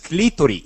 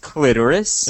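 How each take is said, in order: First: The word has a Spanish pronunciation. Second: The word has an English pronunciation. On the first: "In Spanish, it's clitoris" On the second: "In English, it's clitoris"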